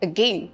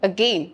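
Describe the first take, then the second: No difference in how they are said.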